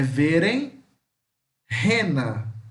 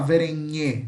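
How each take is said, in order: First: N and h are split across separate syllables. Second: N and h blend into one nh sound. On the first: The speaker calls it right. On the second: The speaker calls it wrong. "não vai falar verenhe, não tem esse som de nhe"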